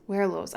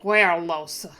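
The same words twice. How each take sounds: First: Said in the usual way. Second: Werlos said as We-los, the r dropped; her own way of saying it. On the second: Shown as a demonstration. Streamer showing how she always says Werlos, r dropped. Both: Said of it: "I always say it like".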